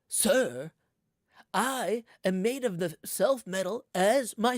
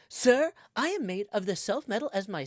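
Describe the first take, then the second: First: A generic California accent with vocal fry at word ends. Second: An exaggerated Valley girl accent, bubbly and OMG-like. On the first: "a generic California accent, just a little bit of a vocal fry at the end of the words" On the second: "the Valley Joe accent. Like, if I was gonna do like a O M G"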